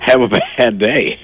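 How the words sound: It is said with giggling laughter.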